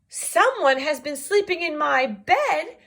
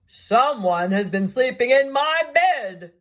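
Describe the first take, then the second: First: It is said in a wee small voice. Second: It is said in a great big voice.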